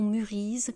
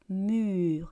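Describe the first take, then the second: First: The word ends with an added -ise sound. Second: The word ends on r with silent es. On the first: The speaker calls it wrong. "ou murise" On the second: The speaker calls it right. "Donc on répète encore une fois"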